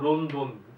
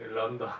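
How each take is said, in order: First: Both syllables use a rounded 'o' vowel. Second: Both syllables use an unrounded 'eo' vowel. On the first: This is the old name for the city. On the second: This is the current name for the city.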